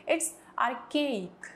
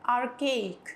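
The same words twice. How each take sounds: First: "archaic" with a hard k, ar-kayik, not ar-chayik. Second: "archaic" repeated slowly, hard k sound; archaic as ar-kayik. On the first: Teacher to students, "archaic" spoken slowly as ar-kayik. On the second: Teacher repeating "archaic" with a hard k for class. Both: Shown as a demonstration. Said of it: "इसको आर्चेइक नहीं बोलेंगे".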